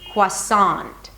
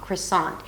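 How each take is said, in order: First: The first syllable starts with kw and ah. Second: The first syllable starts with kr and a schwa. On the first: "with a W instead of an R and another ah sound" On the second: "The first syllable is really short"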